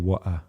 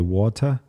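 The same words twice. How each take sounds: First: The t sound is cut out. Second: The t sound is clearly pronounced. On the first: "or do you like cut it?" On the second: "do you enunciate the T"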